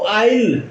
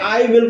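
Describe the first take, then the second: First: It is said as one contracted syllable. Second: It is said as two full words.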